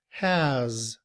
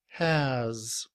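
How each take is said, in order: First: The h is pronounced with a full vowel. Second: The h is pronounced with a full vowel.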